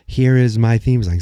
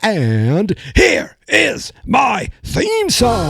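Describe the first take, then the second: First: It is said casually, without conviction. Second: It is said with conviction, meaning it.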